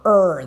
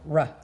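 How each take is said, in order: First: The r sound carries a vowel, like er. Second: The r sound is clipped, with no vowel. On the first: The speaker calls it wrong. "You got to be very careful not to go er, er. That's the E R sound" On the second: The speaker calls it right. "it's like the first sound you hear at the beginning of robot"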